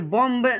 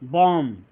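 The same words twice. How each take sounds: First: The final b sound is pronounced. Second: The final b sound is silent. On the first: The speaker calls it wrong. "ये बॉम्ब नहीं हो जाएगा" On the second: The speaker calls it right. "ये क्या होगा बॉम्ब"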